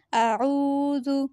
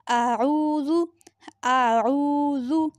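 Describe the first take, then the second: First: आऊज़ु joined slowly; slow syllable blend. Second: आऊज़ु with आइन from the throat, drawn out slowly; Ayn from the throat. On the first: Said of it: "इसकी आवाज़ निकलेगी आ". (आऊज़ु को धीरे जोड़कर) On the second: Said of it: "ये हलक से अदा होगा". (आऊज़ु में आइन हलक से, धीरे खींचकर) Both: Shown as a demonstration.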